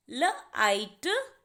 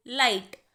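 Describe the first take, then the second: First: "ल आइट" split slowly into its sounds, gh silent; sounded out. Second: Said in the usual way. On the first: Shown as a demonstration. Teacher to students breaking a word into sounds, slow. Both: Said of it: "जी और एच की sound दोनों की silent है".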